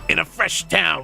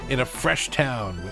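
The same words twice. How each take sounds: First: It is read in a put-on character voice. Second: It is read in his ordinary speaking voice.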